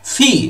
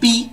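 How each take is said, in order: First: The p comes with a strong puff of air. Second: The p is plain, without a puff of air. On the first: The speaker calls it right. "আমরা এখন থেকে বলবো ফি" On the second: The speaker calls it wrong. "এতদিন পর্যন্ত আমরা কিন্তু এটাকে পি বলছি"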